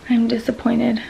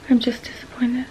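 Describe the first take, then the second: First: Said in the usual way. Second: Whispered, drained and defeated; a tired whisper of disappointment; real whisper. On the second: Real, not acted. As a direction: let it fall away into a whisper. Repeating her disappointment, whispered.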